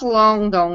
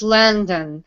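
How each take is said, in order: First: Both vowels are full, Portuguese-style vowels. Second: Both vowels are reduced to schwa. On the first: The speaker calls it wrong. "thinking a little in Portuguese" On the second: The speaker calls it right. "there are two schwas"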